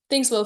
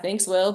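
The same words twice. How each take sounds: First: The thanks sounds warm and heartfelt. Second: The thanks sounds flat and offhand. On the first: The thanks is a genuine compliment. The speaker calls it right. "That's a real compliment" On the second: The thanks is not really a compliment. The speaker calls it wrong. "don't say it in a way that's like"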